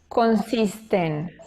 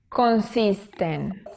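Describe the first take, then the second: First: The two words merge into one. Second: The same.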